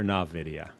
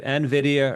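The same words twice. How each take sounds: First: "nvidia" opening on "nah" instead of "en"; nah-vidia pronunciation. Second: "nvidia" with a clear "en" at the start; en-vidia pronunciation. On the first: Asking co-hosts to settle a company name, "nvidia" said as nah-vidia. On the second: Asking co-hosts to settle a company name, "nvidia" said as en-vidia. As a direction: say "nvidia" as en-VID-ia. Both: Shown as a demonstration. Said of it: "Is it nvidia or nvidia?".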